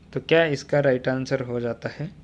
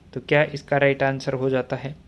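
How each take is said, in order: No difference in how they are said.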